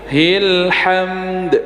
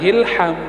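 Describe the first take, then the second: First: The word ends with an audible final d sound. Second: The word ends without a final d sound. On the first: The speaker calls it right. "dalnya harus" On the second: The speaker calls it wrong. "Bukan hilham"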